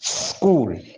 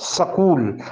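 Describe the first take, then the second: First: The s is a short hiss without vowel. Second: The s is followed by a full vowel. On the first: The speaker calls it right. "ये आधी सीन की आवाज़ है" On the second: The speaker calls it wrong. "सकूल सकूल पढ़ाया जाता है ... ये सकूल नहीं है"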